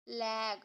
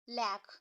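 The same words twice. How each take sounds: First: The vowel is stretched out long. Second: The vowel is said short and quick. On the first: The speaker calls it wrong. "लैग ऐसे तो नहीं पढ़ेंगे ना" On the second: The speaker calls it right. "आप क्या पढ़ेंगे?"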